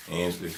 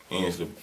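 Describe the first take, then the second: No difference in how they are said.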